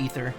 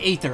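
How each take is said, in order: First: The first vowel sounds like 'ee'. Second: The first vowel sounds like 'ay'. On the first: The speaker calls it right. "It's supposed to be Ether" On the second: The speaker calls it wrong. "I say Aether, I don't think it's pronounced that way"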